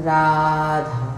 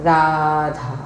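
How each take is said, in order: Both takes have the same delivery.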